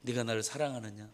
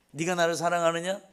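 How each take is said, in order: First: Soft, tender "네가 나를 사랑하느냐?" with no accusation; softer "네가 나를 사랑하느냐?", kindly, not grilling; gentle asking. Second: Interrogating. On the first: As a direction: ask "네가 나를 사랑하느냐?" quietly, as if forgiving. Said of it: "따져 묻고자 하는 거 물음이 아니고". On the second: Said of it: "이렇게 따져 묻는 줄 알았어요". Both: Retold or imitated.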